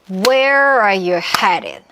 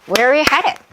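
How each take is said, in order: First: It is said slowly, word by word. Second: It is said fast, words run together.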